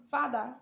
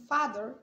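First: British pronunciation, final r left silent; teacher naming the first version of father, British accent. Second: American pronunciation, final r sounded; teacher naming the second version of father, American accent. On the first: British "father" with an open vowel ending. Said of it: "it's British accent". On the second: American "father" ending on a clear r. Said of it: "is American accent". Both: Shown as a demonstration.

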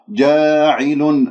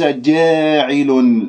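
First: جاعل slow, alif straight; correct jaa'il. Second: جاعل with the alif tilted toward e; wrong tilted alif. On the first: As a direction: say جاعل slowly, no tilt. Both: Shown as a demonstration. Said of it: "ليس جاعل".

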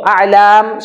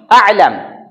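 First: A'lam with "lam" held long as "laam"; prolonged ending. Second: A'lam ending on a short "lam"; unprolonged ending. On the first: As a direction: hold out the last syllable of A'lam. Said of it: "prolong ito". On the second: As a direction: cut the last syllable of a'lam short. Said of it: "Samantalang ito is". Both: Shown as a demonstration.

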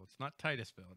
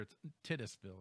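First: "Titusville" said TIE-tus-ville, long first vowel; wrong pronunciation. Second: "Titusville" said TIGHT-us-ville, first syllable short; right pronunciation. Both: Shown as a demonstration. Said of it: "Make it sure, make it clear".

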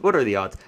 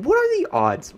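First: Said in the usual way. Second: "what are the odds?" pitched high in disbelief; incredulous. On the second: Real, not acted. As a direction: squeak it out in disbelief. Repeated bad luck, incredulous.

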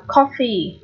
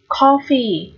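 First: "coffee" with a short open O. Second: "coffee" with a long open O. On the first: Teacher showing both readings to students, short O in "coffee". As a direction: keep the first vowel of "coffee" brief. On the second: Teacher showing both readings to students, long O in "coffee". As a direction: stretch the first vowel of "coffee". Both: Shown as a demonstration. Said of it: "O dài hoặc O ngắn đều được".

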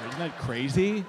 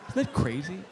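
The two takes are said the same way.

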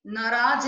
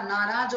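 First: नाराज said "naraaj", short first a; wrong short vowel. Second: Said in the usual way. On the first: Shown as a demonstration. Teacher correcting a mistake, नाराज with short first a. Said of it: "नहीं होता". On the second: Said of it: "होता है".

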